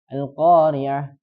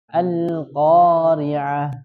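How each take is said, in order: First: The lam sound is cut off without flowing. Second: The lam sound flows on slightly. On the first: The speaker calls it wrong. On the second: The speaker calls it right. "tapi dialirkan"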